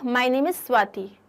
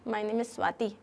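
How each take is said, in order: First: It is said as a plain statement. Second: It is said in a pleading, requesting tone.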